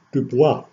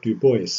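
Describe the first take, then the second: First: "Dubois" said as "doo-BWAH"; French pronunciation. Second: Put-on "Du Bois" said as "doo-BOYCE"; anglicised pronunciation. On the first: Lecturer showing the name Du Bois himself refused, French pronunciation. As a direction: say "Dubois" the French way, silent s, ending in "wah". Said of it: "to use the French pronunciation". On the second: Lecturer giving the name as the neighborhood said it, anglicised pronunciation. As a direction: say "Du Bois" to rhyme with "voice", final s sounded. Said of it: "basically pronounced in a shorthand". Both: Shown as a demonstration.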